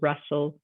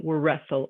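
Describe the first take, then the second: First: The word begins with no W sound. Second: The word begins with an added W sound. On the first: The speaker calls it right. "a silent W" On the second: The speaker calls it wrong. "We don't say wa wrestle"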